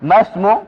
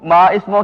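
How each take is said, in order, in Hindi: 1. शब्द आपस में जुड़कर बोले जाते हैं, बीच में कोई स्टॉप नहीं है। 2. शब्द अलग-अलग हैं, और 'ismu' से पहले एक स्टॉप है। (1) "पीछे मिला के पढ़ा जाता है तो फिर वो हमजा साइलेंट" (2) "मा इस्मों की बजाय"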